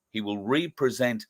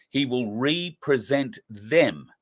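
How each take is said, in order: First: "represent" carries the weight; stress on REPRESENT. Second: Slow, with "He" pushed hard; stress on HE. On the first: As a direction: land firmly on "represent". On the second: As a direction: lean on the word "He", unhurried. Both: Shown as a demonstration. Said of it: "Putting the correct emphasis on the right syllable".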